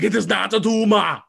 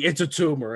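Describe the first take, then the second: First: Put-on Austrian Arnold accent, higher and louder; hammed-up Arnold Schwarzenegger accent, "It is not a tumor". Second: Said in the usual way. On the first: Arnold answering the kid, in a loud Austrian accent. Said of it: "having way too much fun with this accent". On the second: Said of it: "the kid's like".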